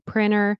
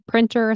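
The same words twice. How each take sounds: First: The T after the N is dropped. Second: The T after the N is clearly pronounced. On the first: "Sometimes I'll say printer" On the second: "for printer, I might keep it. I'll say printer"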